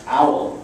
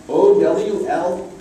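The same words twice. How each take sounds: First: Said in the usual way. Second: O W L spelled letter by letter, slowly; spelling out. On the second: Shown as a demonstration. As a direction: sound out each letter of O W L. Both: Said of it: "tried to sound the word out".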